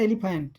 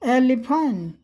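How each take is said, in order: First: The word is said in one quick run. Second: The word is said slowly, syllable by syllable. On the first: "हम लोग सीधे बोल देते हैं" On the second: "यहाँ बड़े आराम से"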